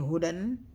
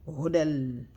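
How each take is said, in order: First: The word ends with a clear n sound. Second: The n merges into l, with no nasal sound. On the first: The speaker calls it wrong. "instead of saying hudan" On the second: The speaker calls it right. "we're gonna drop the noon completely and no nasal sound"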